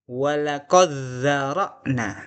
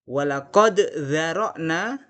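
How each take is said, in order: First: The d merges fully into the following consonant. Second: The d is pronounced clearly before the next consonant. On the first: "yang kedua akan saya ulangi dengan membaca idgham" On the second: "Pertama saya baca idhar"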